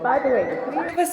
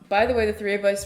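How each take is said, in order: First: It is spoken in a put-on Irish accent. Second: It is spoken in the speaker's normal accent. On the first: "trigger warning, Irish accent" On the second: "I'll put a pause to the accent"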